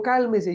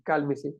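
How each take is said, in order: First: Higher-pitched mock order to calm down; mild mock shout. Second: Said in the usual way. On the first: Shown as a demonstration. Teacher showing how not to calm someone, mild mock shout. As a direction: lightly imitate someone yelling for calm. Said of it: "y estoy gritando". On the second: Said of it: "no es buena idea decir".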